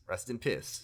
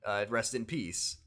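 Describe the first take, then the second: First: "piss" said in place of "peace", flat and quiet; mumbled pun "Rest in piss"; joking pun. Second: Said in the usual way. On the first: Shown as a demonstration. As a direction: swap "peace" for "piss" deadpan.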